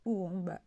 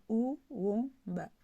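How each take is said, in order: First: Said in the usual way. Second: "uomba" in pieces: ou, wo, mba; read separately. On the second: Shown as a demonstration. Teacher reading separately for learners, "uomba" syllable by syllable. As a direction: break "uomba" apart with a small gap after each syllable. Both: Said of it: "On va lire séparément".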